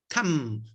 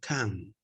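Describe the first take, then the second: First: The word ends with a closed m sound. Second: The word ends with an open n sound. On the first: The speaker calls it wrong. "Si yo digo cam, ya la malogré" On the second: The speaker calls it right. "¿Cerré la boca? No, no"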